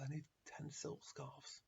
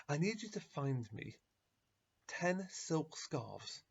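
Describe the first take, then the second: First: Soft, slow, firm repeat; quiet insistence. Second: Drawn-out, slow, insistent request; slow insistence. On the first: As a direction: repeat it calmly and much softer. Rabbi calmly repeats his demand. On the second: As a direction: lay out each word slowly and firmly. Rabbi insists on his request. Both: Acted.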